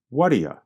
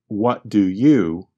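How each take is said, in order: First: The three words are reduced and run together. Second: The three words are said fully and separately. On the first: "to what do you when we speak quickly" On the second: "We change the three words, what do you"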